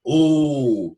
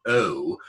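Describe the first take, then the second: First: "Oh" long and round, as in pop songs; louder, higher "Oh" with no glide; held monophthong "Oh" imitating a pop singer. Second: "Oh" as a gliding "eh-oo"; RP O vowel. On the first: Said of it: "People like [name] would go". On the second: Shown as a demonstration. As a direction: modern RP diphthong on "Oh".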